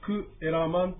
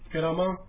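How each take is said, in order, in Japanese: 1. 単語は、'kue' の音がはっきり分かれて始まる。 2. 単語は、'ke' の音がくっついて始まる。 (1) "もともとはクエラマン" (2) "くっつきまして、ケラマンというふうに発音します"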